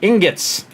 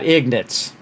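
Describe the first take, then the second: First: The word starts with 'ing' and ends 'gots'. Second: The word starts with 'ig' and ends 'nits'. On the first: The speaker calls it right. "I was wondering how you say that properly" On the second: The speaker calls it wrong. "Not ignits"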